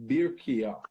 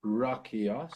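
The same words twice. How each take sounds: First: "Birkia", opening on bir, stated firmly and falling; vowel change, Birkia. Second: "Rakia", opening on ra, lifting at the end; vowel change, Rakia. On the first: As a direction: say "Birkia" with an i in the first syllable. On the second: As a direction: say "Rakia" with an a in the first syllable. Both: Shown as a demonstration. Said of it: "but the vowels change".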